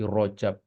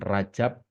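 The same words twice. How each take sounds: First: It is said following the original Arabic letters. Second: It is said with a local Indonesian pronunciation. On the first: The speaker calls it right. "tapi Rajab" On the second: The speaker calls it wrong. "Bukan Rajab"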